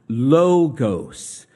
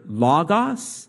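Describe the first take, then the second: First: The first vowel is a rounded 'oh' sound. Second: The first vowel is an open 'ah' sound. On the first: This is the modern Greek pronunciation. "which is modern Greek" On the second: This is the ancient Koine Greek pronunciation. "which is Koine Greek"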